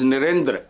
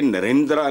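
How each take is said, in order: First: The final vowel is light and nearly silent. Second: The final vowel is long and fully voiced. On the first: The speaker calls it right. "It is नरेंद्र, हल्का सा" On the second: The speaker calls it wrong. "इस तरह पखरोट के नरेंद्रा नहीं"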